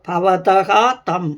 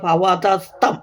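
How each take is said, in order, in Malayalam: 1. ഈ രണ്ടു വാക്കുകൾ വേറെ വേറെയാണ് പറയുന്നത്. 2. വാക്കുകൾ 's' ശബ്ദം ചേർത്ത് ഒന്നിച്ചാണ് പറയുന്നത്.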